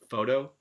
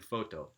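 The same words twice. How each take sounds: First: The middle consonant is a quick tap. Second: The middle consonant is a clear t sound. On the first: The speaker calls it right. "in American English, it's a tap sound" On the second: The speaker calls it wrong. "that second one ... with the T sound in it"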